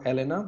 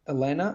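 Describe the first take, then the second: First: The name is said with Italian pronunciation. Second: The name is said with English pronunciation.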